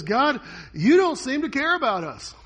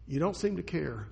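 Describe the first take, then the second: First: Higher, louder desperate cry to God. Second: Said in the usual way. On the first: Retold or imitated. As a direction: throw the complaint up at heaven. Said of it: "So Habakkuk cries out". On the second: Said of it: "His question is basically this".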